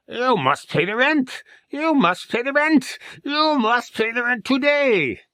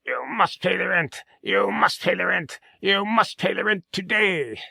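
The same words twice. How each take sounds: First: High, louder, slow villain demand. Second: High, theatrical melodrama villain. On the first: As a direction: press harder for the rent, louder. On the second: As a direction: menace the damsel over the rent. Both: Acted. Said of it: "the villain".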